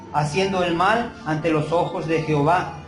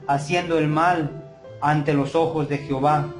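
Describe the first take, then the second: Both takes have the same delivery.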